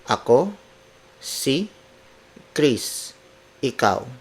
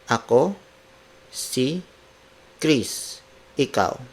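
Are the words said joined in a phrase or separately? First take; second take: separately; separately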